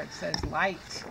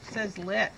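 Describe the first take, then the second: First: "light" with a long "eye" vowel; long i sound. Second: "lit" with a short i, like "lit"; short i sound. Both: Shown as a demonstration. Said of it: "If I put an E there".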